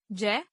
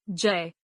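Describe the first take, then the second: First: जय as a single vowel "jai"; mispronounced. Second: Said in the usual way. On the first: Shown as a demonstration. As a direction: say जय as "jae" without the y glide. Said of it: "अशुद्ध". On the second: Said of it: "शुद्ध".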